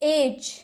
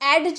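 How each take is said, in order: First: No separate d sound is pronounced before the end. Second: A distinct d sound is pronounced before the end. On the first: The speaker calls it right. "एज किनारा" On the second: The speaker calls it wrong. "एडज नहीं"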